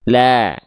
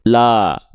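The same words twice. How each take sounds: First: The vowel is said thin with a slight smile. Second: The vowel is said with a plain open mouth. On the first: The speaker calls it right. "tapi tipiskan dia" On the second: The speaker calls it wrong. "jangan hanya buka mulut seperti ini"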